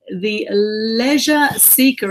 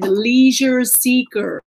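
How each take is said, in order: First: It is said in an Australian accent. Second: It is said in an American accent. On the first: "as we say in Australia" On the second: "or in America, they say"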